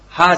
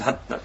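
First: The word ends on an open vowel. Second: The word ends with a short clipped stop. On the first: The speaker calls it wrong. "歯じゃなくて" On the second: The speaker calls it right. "歯にちっちゃいツですかね"

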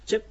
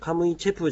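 First: The word ends with a short bare 'p'. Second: The word ends with a full 'pu' syllable. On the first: The speaker calls it right. "チェプという発音になります" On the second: The speaker calls it wrong. "カムイチェプじゃなくて"

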